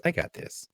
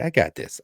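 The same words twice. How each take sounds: First: Breathy whisper of I got this. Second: Said in the usual way. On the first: Real, not acted. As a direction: whisper it to yourself.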